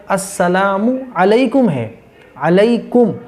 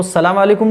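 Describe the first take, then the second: First: "अस्सलामु अलैकुम" as two clear words; correct salam. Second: Quick "सलाम अलैकुम", no opening "अस्"; mistaken salam. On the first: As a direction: sound "मु" fully, then emphasise "अलैकुम". ("अस्सलामु अलैकुम" पूरा, साफ़) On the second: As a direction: run "सलाम अलैकुम" together briskly. ("सलाम अलैकुम" जल्दी, अधूरा) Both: Shown as a demonstration. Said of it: "नहीं करना है".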